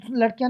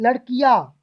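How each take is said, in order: First: लड़कियाँ quick, with a short run-together ending; wrong pronunciation. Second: लड़कियाँ loud, with drawn-out "ki-yaa" ending; correct pronunciation. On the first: Teacher showing what not to say, mispronounced. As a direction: clip through लड़कियाँ as "ladkyaan". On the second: Teacher correcting students, emphatically pronounced. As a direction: stretch the end of लड़कियाँ firmly. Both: Shown as a demonstration. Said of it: "नहीं बोलेंगे".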